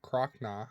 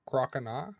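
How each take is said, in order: First: Croconaw as "CROCK-naw", two syllables; middle O left out. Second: Croconaw as "CROCK-uh-naw"; full three syllables. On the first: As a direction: drop the middle vowel from Croconaw. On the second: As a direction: keep the middle o of Croconaw as a light "uh". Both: Shown as a demonstration. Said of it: "leave out the extra O".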